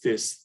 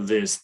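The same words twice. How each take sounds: First: The th sound is voiceless, without buzzing. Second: The th sound is voiced, with buzzing. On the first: The speaker calls it wrong. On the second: The speaker calls it right.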